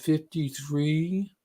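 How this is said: It sounds unsure, like a question. The speaker is not sure of the answer. The speaker calls it wrong. "They have that little questioning lisp in their voice"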